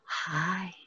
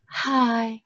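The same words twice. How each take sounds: First: It is said plainly, with little feeling. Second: It is said with lively, expressive feeling.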